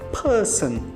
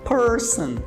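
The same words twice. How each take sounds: First: The r after the vowel is silent. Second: The r after the vowel is clearly pronounced. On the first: "Porém no inglês britânico vai ser person" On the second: "No inglês americano, eles vão enrolar a língua e vão falar person"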